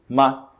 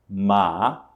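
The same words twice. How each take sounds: First: The syllable is short with no tone contour. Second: The pitch rises from middle to high. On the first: "sem tom, da forma como a gente pronunciaria em português" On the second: "o segundo tom é o tom que sobe"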